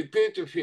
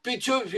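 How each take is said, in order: First: Петёфи stressed on the first syllable, ПЕ. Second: Петёфи stressed on the middle syllable, ё. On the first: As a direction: say Петёфи as ПЕ-те-фи, ё unstressed. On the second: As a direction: say Петёфи with the accent on the ё. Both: Shown as a demonstration. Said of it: "у венгров не всегда ё под ударением".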